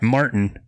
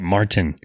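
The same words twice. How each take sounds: First: The T sound in the middle is dropped. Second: The T sound in the middle is clearly pronounced. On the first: The speaker calls it wrong. "not Martin" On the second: The speaker calls it right. "He likes to pronounce the T"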